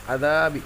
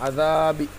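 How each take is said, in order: The two takes are said the same way.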